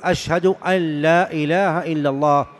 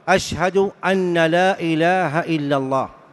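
First: The n before 'la' merges into the l. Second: The n before 'la' is pronounced separately. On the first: The speaker calls it right. "مخففة من الثقيلة، مدغمة" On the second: The speaker calls it wrong. "هذا خطأ"

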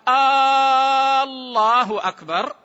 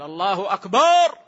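First: The opening vowel of Allah is drawn out. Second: The vowel after the b in akbar is drawn out. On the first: It turns the phrase into a question. "إن مد همزة لفظ الجلالة همزة الله" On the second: The word comes to mean a drum. "مد الألف يغير المعنى يصبح طبل"

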